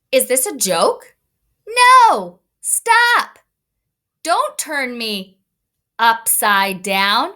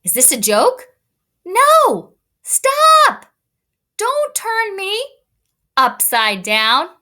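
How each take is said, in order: First: Put-on a small boy yelling to be put down; protesting kid. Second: Very high loud no and stop, then slow upside down; a little boy shrieking to be set right; squealing kid protest. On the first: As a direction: son Anthony protesting at his brothers. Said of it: "put some special words to this photograph". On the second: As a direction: son Anthony shrieking at his big brothers. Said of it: "Let me read that again". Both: Shown as a demonstration.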